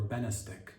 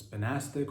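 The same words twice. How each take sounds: First: "Benastic" with BEN stressed; stress on first syllable. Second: "Benastic" with NAS stressed; stress on second syllable. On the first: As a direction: pronounce "Benastic" BEN-uh-stic. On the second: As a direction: pronounce "Benastic" buh-NAS-tic. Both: Shown as a demonstration. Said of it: "I don't know if it's Benastic or Benastic".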